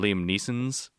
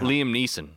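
First: The surname ends with an extra s sound. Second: The surname ends without an extra s sound.

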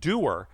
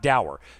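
First: The word rhymes with 'poor'. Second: The word rhymes with 'hour'. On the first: The speaker calls it right. "because that's how you pronounce it" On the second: The speaker calls it wrong. "it's not dour"

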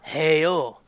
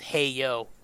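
First: It is said in a put-on Latin accent. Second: It is said in his ordinary voice.

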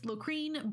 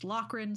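First: The last syllable has a long vowel. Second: The last syllable has a short vowel. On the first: This is how a modern reader might say it. The speaker calls it wrong. "So I might pronounce this Locrine" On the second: This is the likely historical pronunciation. The speaker calls it right. "the name was most likely pronounced Locrin"

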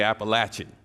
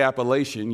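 First: It is said the way locals say it. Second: It is said the way outsiders say it.

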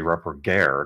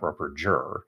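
First: The final g is hard, as in 'go'. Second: The final g is soft, as in 'gem'. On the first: The name follows its presumed Austrian origin. The speaker calls it right. "then it should have a hard G at the end" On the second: The name does not follow its presumed Austrian origin. The speaker calls it wrong. "not a soft G"

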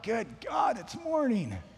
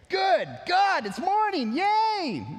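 First: It sounds groggy and dismayed. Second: It sounds happy and cheerful.

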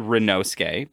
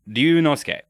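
First: The first syllable is said as 'ri'. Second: The first syllable is said as 'ryu'. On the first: The speaker calls it wrong. "they just say Rinosuke" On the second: The speaker calls it right. "the kid's name is Ryunosuke"

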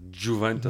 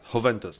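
First: It begins with a 'j' sound. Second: It begins with a 'y' sound. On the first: The speaker calls it wrong. "not Juventus" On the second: The speaker calls it right. "You don't pronounce the J"

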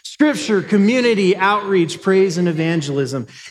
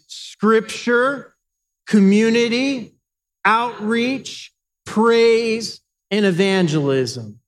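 First: The list is said very fast. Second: The list is said at a moderate pace.

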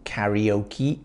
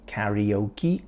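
First: The word is said with an English pronunciation. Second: The word is said with an English pronunciation.

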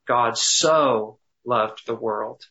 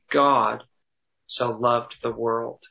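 First: The stress is on the word so. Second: The stress is on the word God.

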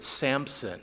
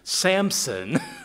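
First: A 'p' sound is heard before the 's'. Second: No 'p' sound is heard before the 's'. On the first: The speaker calls it wrong. "I think I've pronounced it Samson, which is just wrong" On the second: The speaker calls it right. "There's no P in there"

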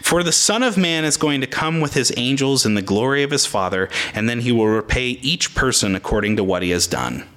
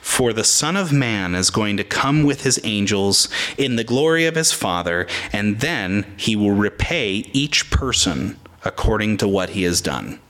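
First: It is read at normal speed. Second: It is read slowly.

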